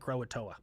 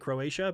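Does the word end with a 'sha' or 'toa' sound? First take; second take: toa; sha. First: The word ends with a 'toa' sound. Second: The word ends with a 'sha' sound. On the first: The speaker calls it wrong. "I called it Croatoa" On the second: The speaker calls it right. "I'm glad I learned how to say Croatia"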